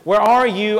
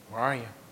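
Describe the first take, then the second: First: It is said in a playful, teasing tone. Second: It is said in a stern, serious tone.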